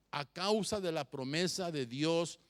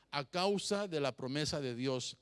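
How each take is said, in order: Both takes have the same delivery.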